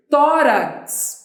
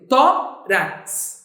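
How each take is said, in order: First: Said in the usual way. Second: "Tórax" split as tó-rax, stressing tó; syllable by syllable. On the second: Shown as a demonstration. Teacher explaining why "Tórax" has an accent, syllable by syllable. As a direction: break "Tórax" into two beats, tó, rax. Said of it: "Por que que tórax tem acento?".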